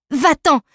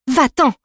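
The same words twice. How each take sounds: First: Sharp, loud, high command; first sharp bark of an order at a beast; angry shout. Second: Firm, louder order said once more; insistent repeated shout at a dog. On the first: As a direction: drive the dog off with your voice. Girl shouts at charging dog. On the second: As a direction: hammer the command home. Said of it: "répéta-t-elle". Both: Acted.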